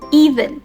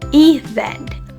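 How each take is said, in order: First: The stress is on the first syllable. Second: The stress is on the second syllable. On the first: The speaker calls it wrong. "accidentally stress the wrong part" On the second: The speaker calls it right. "the second syllable is the word stress"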